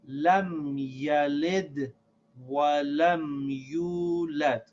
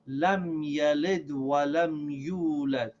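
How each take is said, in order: First: The line is read at a slower pace. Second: The line is read at a faster pace.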